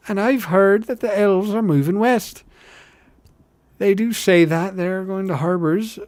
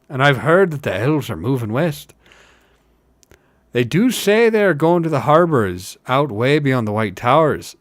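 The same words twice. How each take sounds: First: High, louder rustic hobbit; eager village gossip up high; high character voice. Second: Louder rustic hobbit, only slightly raised; emphatic village storyteller; working hobbit rumour. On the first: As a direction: pitch the rumour well up, lilting. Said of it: "I got the two characters backwards". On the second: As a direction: pass on the rumour with weight. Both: Acted.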